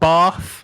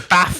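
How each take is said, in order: First: It is said with a southern English vowel. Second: It is said with a northern English vowel. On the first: The speaker calls it wrong. "not bath. I ain't southern" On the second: The speaker calls it right. "I say bath"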